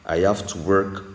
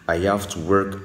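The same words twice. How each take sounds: No difference in how they are said.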